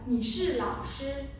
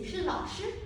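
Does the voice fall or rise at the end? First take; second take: fall; rise. First: The voice does not rise at the end. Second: The voice rises at the end. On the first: It states that the listener is a teacher. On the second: It asks whether the listener is a teacher.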